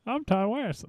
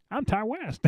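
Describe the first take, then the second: First: High, thin mock old man voice; Ty West impression. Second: High, thin mock old man voice. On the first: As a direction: squeak it like a mocking caricature. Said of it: "his Ty West impersonation". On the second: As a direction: squeak it like a doddering old man. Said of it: "Sound like an old man".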